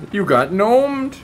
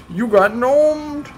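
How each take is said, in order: First: High, loud, slow taunt; slow high gloating taunt; mock taunt. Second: Even higher, loud, slow taunt; slow very high gloating taunt; higher mock taunt. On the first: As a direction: gloat slowly at them. Taunting victims. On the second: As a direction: gloat slowly, pitch up further. Taunting victims again.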